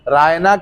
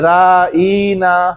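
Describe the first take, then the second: First: The word is said plainly with short vowels. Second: The vowel after the ayn is drawn out long. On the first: Please be considerate of us. "सीधे साधे अंदाज में रायना कहने के बजाय" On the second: Our shepherd, used as a mocking insult. "खींच देते थे"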